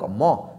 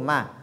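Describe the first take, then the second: First: The syllable is heavy with a darkened vowel. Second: The syllable is light with a clear vowel. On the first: The speaker calls it wrong. "On ne dit pas donc Mo" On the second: The speaker calls it right. "lu de façon légère"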